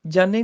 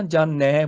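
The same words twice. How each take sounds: First: ਜਾਣੇ ending in a closed "e"; wrong pronunciation demo. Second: ਜਾਣੈ ending in a wide open "ai"; correct pronunciation demo. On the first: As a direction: say ਜਾਣੇ as "jaa-ne", like "ay". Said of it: "ਜਾਣੇ ਨਹੀਂ ਬੋਲਣਾ". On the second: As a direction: say ਜਾਣੈ as "jaa-nai", open last vowel. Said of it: "ਦਲਾਵਾਂ ਹੈਗੀਆਂ ਨੇ". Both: Shown as a demonstration.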